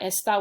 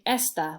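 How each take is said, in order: First: The stress is on the last syllable. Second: The stress is on the first syllable.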